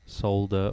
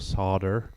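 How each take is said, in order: First: It is said in a non-American accent. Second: It is said in an American accent.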